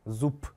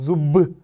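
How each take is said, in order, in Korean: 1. 마지막 자음은 무성음 p입니다. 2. 마지막 자음은 유성음 b입니다. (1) "빼처럼 발음이 됩니다. 약하게" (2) "이렇게 하지 않죠?"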